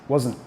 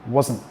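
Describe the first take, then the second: Both takes have the same delivery.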